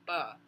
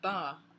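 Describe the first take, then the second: First: The first consonant is voiceless. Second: The first consonant is voiced. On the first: The speaker calls it right. "I'm saying ba. No voicing" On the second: The speaker calls it wrong. "I'm not saying ba"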